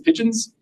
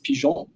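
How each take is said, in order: First: The word is said with English pronunciation. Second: The word is said with French pronunciation. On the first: The speaker calls it wrong. "it looks like it says pigeons" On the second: The speaker calls it right. "if you want to be totally correct, you would pronounce this pigeon"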